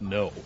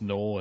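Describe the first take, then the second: First: The word ends with a vowel sound. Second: The word ends with an L sound. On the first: The speaker calls it right. "I think it's pronounced no" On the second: The speaker calls it wrong. "I don't think it's pronounced null"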